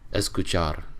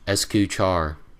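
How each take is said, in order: First: It is said with a Spanish accent. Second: It is said with an American accent. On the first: The speaker calls it right. "no, it's escuchar" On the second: The speaker calls it wrong. "they say it with an American accent"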